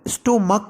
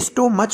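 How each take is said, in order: First: The word ends with a k sound. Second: The word ends with a ch sound. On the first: The speaker calls it right. "हम स्टोमक कह रहे हैं" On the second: The speaker calls it wrong. "इसे स्टोमच नहीं बोल रहे"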